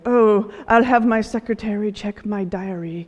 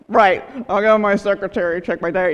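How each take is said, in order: First: It is said sincerely, in a posh manner. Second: It is said sarcastically, like a tough guy.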